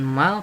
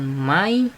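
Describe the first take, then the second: First: The word ends in an l sound. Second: The word ends in an i sound. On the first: "bukan mal" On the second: "bukan mai"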